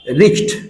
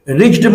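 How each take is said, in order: First: The word ends with a t sound. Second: The word ends with a d sound. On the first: The speaker calls it right. "ये आधा चा और फिर टा" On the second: The speaker calls it wrong. "रिच्ड मत बोलिएगा, गलत हो जाएगा"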